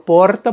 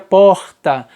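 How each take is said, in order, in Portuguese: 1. Tem sotaque da cidade de São Paulo. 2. Tem sotaque nordestino brasileiro. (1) "Eu falo porta porque eu nasci na capital de São Paulo" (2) "Se eu fosse nordestino, eu falaria porta"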